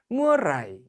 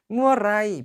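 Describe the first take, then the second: First: The last syllable has a low tone. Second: The last syllable has a level mid tone. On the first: It is the conversational style. "일성으로 가면 회화체" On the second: It is the written style. "평성으로 가면 문어체"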